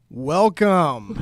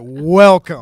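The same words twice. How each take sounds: First: It is said with little energy. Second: It is said with lots of energy.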